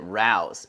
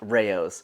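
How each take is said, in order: First: The name is said like 'rouse'. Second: The name is not said like 'rouse'. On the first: The speaker calls it wrong. "I pronounced it Rouse" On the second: The speaker calls it right. "so it is pronounced Rao's"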